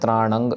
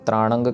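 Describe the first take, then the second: The two takes are said the same way.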